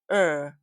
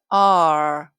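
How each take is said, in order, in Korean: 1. 자음 소리만 짧게 냅니다. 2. 모음까지 붙인 글자 이름 전체를 말합니다. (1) "소리는" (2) "이름은"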